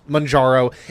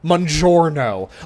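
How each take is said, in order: First: The first syllable sounds like 'man'. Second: It ends with an added 'no' syllable. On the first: This is the usual pronunciation. The speaker calls it right. "it's typically pronounced Manjaro" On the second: It sounds like an Italian food order. The speaker calls it wrong. "like they're ordering a freaking pizza"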